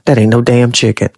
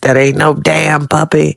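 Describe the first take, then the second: First: It is said in the speaker's own voice. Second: It is said in a Martin impression voice.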